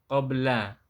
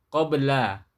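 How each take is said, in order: The two takes are said the same way.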